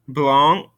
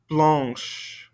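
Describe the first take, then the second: First: "Blanc" ending in a nasal vowel, no consonant; masculine blanc. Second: "blanche" ending in a clear SH sound; "blanche" with a final SH sound; feminine blanche. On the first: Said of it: "Ending in a nasolated N right here". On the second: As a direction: say "blanche" and finish with SH. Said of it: "ending in that C H sound". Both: Shown as a demonstration.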